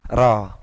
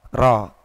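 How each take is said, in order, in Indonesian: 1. Bunyi r-nya tipis, lidah di bagian depan. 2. Bunyi r-nya tipis, lidah di bagian depan.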